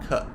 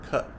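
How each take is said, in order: Both takes have the same delivery.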